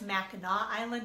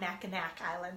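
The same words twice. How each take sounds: First: The name ends with an 'aw' sound. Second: The name ends with a 'k' sound. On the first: The speaker calls it right. "the C is pronounced like a W" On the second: The speaker calls it wrong.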